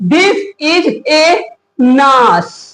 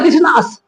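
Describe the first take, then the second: First: The article is said as a separate syllable. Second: The article runs straight into the next word. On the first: The speaker calls it wrong. "अब इसको ऐसे नहीं पढ़ेंगे, ... ये गलत हो जाएगा।" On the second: The speaker calls it right. "इसको डायरेक्टली बोला"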